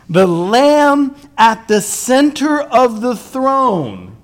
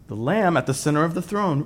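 First: "Lamb" stretched out, slow and loud; preacher's booming proclamation; slow emphatic proclamation. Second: Said in the usual way. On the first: Shown as a demonstration. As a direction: proclaim it slowly, leaning on "Lamb".

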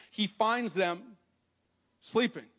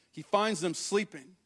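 First: Slow he finds them, pause, then sleeping; dramatic pause. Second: Said in the usual way. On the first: Shown as a demonstration. Preacher to congregation, slow with a pause before sleeping. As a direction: hold back the word sleeping for effect.

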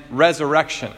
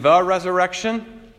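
First: Said in the usual way. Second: "the" leaned on before "resurrection"; stress on THE. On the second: Shown as a demonstration. Preacher contrasting two kinds of belief, THE stressed. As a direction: set THE apart with firm emphasis. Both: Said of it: "the difference between believing in".

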